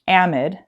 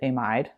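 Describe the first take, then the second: First: It is pronounced the American way. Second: It is pronounced the British way. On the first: "amide is what Americans would call this group" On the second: "U K, I know at least, they pronounce it amide"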